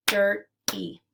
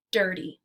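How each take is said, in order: First: "Dirty" pulled apart, DIR, pause, TY; split into syllables. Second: Said in the usual way. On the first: Shown as a demonstration. Teacher clapping out syllables for learners, "Dirty" segmented as dir ... ty. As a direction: say "Dirty" as two separate beats, dir and ty. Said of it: "we'll clap out the syllables". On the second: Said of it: "Let's segment syllables now".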